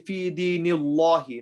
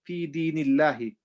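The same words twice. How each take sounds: First: The sound is heavy, with a full mouth. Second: The sound is light, with an empty mouth. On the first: The speaker calls it wrong. "We don't say" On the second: The speaker calls it right. "so we say it with empty mouth"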